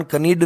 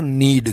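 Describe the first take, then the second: First: कनीड with the k sounded before नीड; wrong pronunciation. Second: नीड said with a silent k, just नीड; correct pronunciation. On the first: Teacher showing students the wrong way, k sounded. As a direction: say कनीड with a clear k at the start. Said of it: "इसका उच्चारण कनीड नहीं है". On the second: Teacher giving students the right form, k silent. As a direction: say नीड starting straight on the n. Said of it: "के silent रहता है यहाँ पर". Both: Shown as a demonstration.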